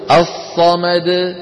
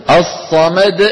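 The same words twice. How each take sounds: First: الصمد drawn out slowly, the dal bouncing with the throat open; correct open qalqala. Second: الصمد ended with a deliberate glottal stop; wrong glottal stop ending. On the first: Teacher demonstrates the correct qalqala, slowly. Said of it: "الصواب أن يقول". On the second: Teacher deliberately adds a hamza to show the error. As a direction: shut the throat after the dal in الصمد. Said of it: "سمعانين الهمزة؟ أنا الآن أتعمد إخراج همزة". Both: Shown as a demonstration.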